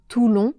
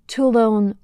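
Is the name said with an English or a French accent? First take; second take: French; English. First: It is said with a French accent. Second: It is said with an English accent. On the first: "au lieu de" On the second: "avec un accent anglais"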